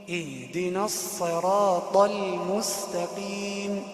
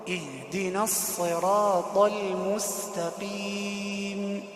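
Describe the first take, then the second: The two takes are said the same way.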